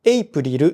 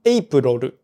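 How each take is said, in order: First: エイプリル with a clear "ri" in the second half; pronunciation contrast. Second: エイプロル with "ro" replacing "ri"; pronunciation contrast. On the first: Reading a listener's complaint about April, エイプリル with clear リ. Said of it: "という発音は". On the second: Reading how April sounds to the listener, エイプロル with ロ. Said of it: "というような感じで". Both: Shown as a demonstration.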